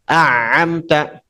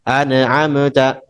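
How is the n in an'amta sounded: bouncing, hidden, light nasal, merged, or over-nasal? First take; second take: merged; bouncing. First: The n merges into the following sound. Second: The n sound bounces with an echo. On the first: "idgham dileburkan huruf setelahnya" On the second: "dibaca dengan kol-kolah yang paling sering nih, paling sering itu kol-kolah ilegal"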